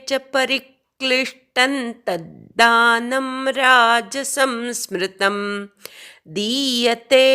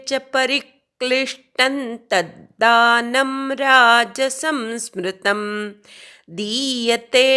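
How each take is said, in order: The two takes are said the same way.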